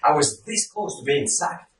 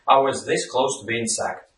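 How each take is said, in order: First: It is said with dramatic, emotional emphasis. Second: It is said flatly, with no emotion. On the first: It was a serious, important near miss. The speaker calls it right. "it actually adds a dramatic effect" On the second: The speaker does not care much about it. The speaker calls it wrong. "I'm actually indifferent. There's no emotion in the message"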